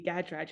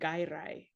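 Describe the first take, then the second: First: The surname is pronounced the English way. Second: The surname is pronounced the Swedish way. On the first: It is the form used in England. "when I'm in England and I say Gadraj" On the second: It is the form used in Sweden. "in Sweden I say Gairai"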